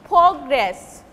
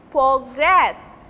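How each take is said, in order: First: "Progress" with the first syllable punched, as a noun; stress on first syllable. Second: "progress" with the second syllable stressed, as a verb. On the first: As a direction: hit the opening syllable of "Progress". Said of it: "they will take stress in the first syllable". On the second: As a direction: lean on the final syllable of "progress". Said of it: "they will take stress on the second syllable". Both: Shown as a demonstration.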